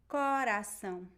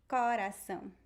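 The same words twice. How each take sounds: First: The first vowel is an open O. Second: The first vowel is an open O.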